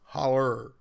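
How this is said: It is said Appalachian-style, ending in -er.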